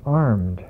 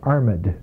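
First: The word is said in the ordinary modern way. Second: The word is said in an old Victorian way.

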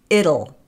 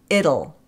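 Both takes have the same delivery.

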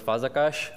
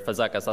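First: The name is said with its native pronunciation. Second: The name is said with an English-style pronunciation. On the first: "My name is [name]" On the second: "as most of you would likely pronounce it"

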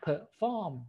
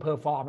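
First: The stress is on the second syllable. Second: The stress is on the first syllable. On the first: The speaker calls it right. "จะเน้นที่พยางค์ที่2 นั่นเองมี2 พยางค์นะ" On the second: The speaker calls it wrong. "นะครับจะไม่เป็น"

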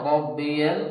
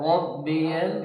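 The two takes are said the same way.

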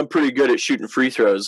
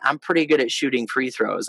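First: The tone sounds boastful and cocky. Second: The tone sounds calm and confident. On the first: The speaker brags about the skill. "with the cocky and confident, I can say" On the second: The speaker states the skill modestly. "Or I can say"

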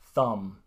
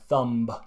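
First: The word ends with no B sound. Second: A strong B is pronounced at the end. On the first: The speaker calls it right. "But this is wrong, so it's dumb, thumb" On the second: The speaker calls it wrong. "Finns really put a strong B at the end. So I hear dumb or thumb"

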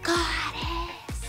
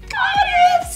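First: It is said in a quiet voice. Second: It is said in a squeaky mouse voice.

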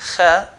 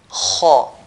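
First: The consonant is light, with a thin mouth. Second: The consonant is heavy, with a full mouth. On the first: The speaker calls it wrong. "instead of saying kha" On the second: The speaker calls it right. "they used to say kha"

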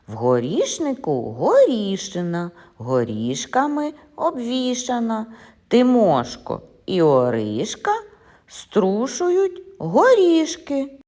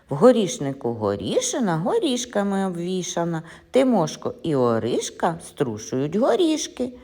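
First: It is said at a slower, ordinary pace. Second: It is said at a somewhat faster pace.

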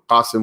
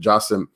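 First: The name begins with a deep q sound. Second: The name begins with a j sound. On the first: "they'll actually turn the qaf into a jim" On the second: "qasim will turn into jasim"

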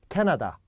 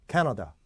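First: All three syllables are equally strong and clear. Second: The first syllable is strong, the rest weak. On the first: The speaker calls it wrong. "10중 8구 이렇게 할 거예요" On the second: The speaker calls it right. "캐가 액센트가 있기 때문에 강하게 읽어줘요"

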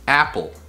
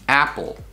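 The two takes are said the same way.

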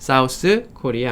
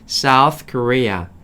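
First: South ends with an s sound. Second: South ends with a th sound. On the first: The speaker calls it wrong. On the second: The speaker calls it right.

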